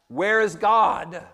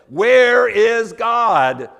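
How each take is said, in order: First: It is asked in a calm, plain voice. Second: It is asked in a loud, raised voice.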